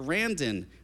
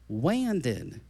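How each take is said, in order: First: The name begins with an R sound. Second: The name begins with a W sound. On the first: The speaker calls it right. "our kids are Randon" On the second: The speaker calls it wrong. "they would say it like this"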